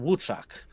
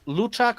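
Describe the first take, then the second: First: The name begins with a W sound. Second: The name begins with an L sound. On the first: The letter is an L with a stroke through it. "if the L's got um cross through it, it's Wuchak" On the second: The letter is a plain L. "Depends if the L's got um cross through it"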